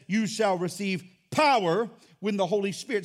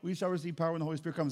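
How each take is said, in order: First: It is said with force and punch. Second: It is said flatly, without expectation.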